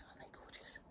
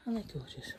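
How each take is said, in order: First: "gorgeous" breathed as a near-silent whisper. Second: Said in the usual way. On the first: Real, not acted. Admiring flowers while the house sleeps, near-silent whisper. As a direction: barely whisper "Aren't they gorgeous?". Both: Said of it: "And I'm whispering because".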